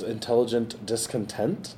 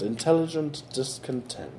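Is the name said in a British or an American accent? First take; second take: American; British. First: It is said in the speaker's ordinary accent. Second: It is said in a put-on British accent.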